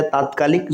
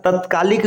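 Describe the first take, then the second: First: तात्कालिक said "taat-kaalik", long first aa; correct long vowel. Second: तत्कालिक said "tat-kaalik", short first a; wrong short vowel. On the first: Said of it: "इसका सही स्वरूप होता है". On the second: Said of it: "ये अशुद्ध होता है". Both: Shown as a demonstration.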